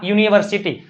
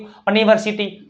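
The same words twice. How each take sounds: First: યુનિવર્સિટી opening on "you"; correct "yu" start. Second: યુનિવર્સિટી said as "uh-niversity"; wrong "a" start. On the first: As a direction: begin યુનિવર્સિટી with a clear "yu". (યુનિવર્સિટી, શરૂઆતમાં યુ) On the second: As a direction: swap the opening "you" of યુનિવર્સિટી for "uh". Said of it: "આમ કેમ નો થયું". (યુનિવર્સિટીને "અનિવર્સિટી" બોલીને) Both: Shown as a demonstration.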